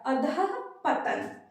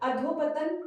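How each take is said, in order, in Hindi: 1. बीच का हिस्सा 'dhah' की तरह, हल्की साँस वाले अंत के साथ बोला जाता है। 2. बीच का हिस्सा 'dho' की तरह, जुड़ा हुआ बोला जाता है। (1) "अधः पतन होता है" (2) "अधोपतन गलत है"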